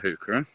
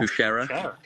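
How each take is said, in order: First: The middle consonant is a hard k sound. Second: The middle consonant is a soft sh sound. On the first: "I love a hookera" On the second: "I heard someone pronounce hookera as hoochera"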